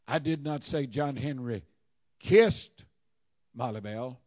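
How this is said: The stress falls on 'kissed'. He did something else to her. "Maybe he rubbed her feet"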